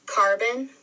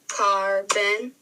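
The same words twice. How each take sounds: First: Said in the usual way. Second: "carbon" broken into car, bon; split into syllables. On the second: Shown as a demonstration. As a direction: say "carbon" in two separate beats. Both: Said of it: "break down those syllables".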